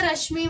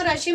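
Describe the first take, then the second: First: रश्मि said with the sh running into the mi; the right way, रश्मि with the half sh joined to the next syllable; रश्मि said with the sh and mi blended; correct joined sound. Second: रश्मि broken as rash-mi with the sh closing the first syllable; the wrong way, रश्मि split after the sh; रश्मि said with a pause-like break after rash. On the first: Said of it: "इसे रश्मि बोलेंगे". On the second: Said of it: "इसे हम रश्मि नहीं बोलेंगे". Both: Shown as a demonstration.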